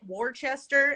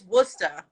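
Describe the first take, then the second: First: The name is said the way outsiders say it. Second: The name is said the way locals say it. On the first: This is how people from elsewhere say it. The speaker calls it wrong. "y'all pronounce it Worcester" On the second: This is how people from there say it. The speaker calls it right. "no, it's Worcester"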